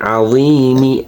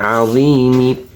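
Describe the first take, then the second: First: The word ends with a short i vowel. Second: The same.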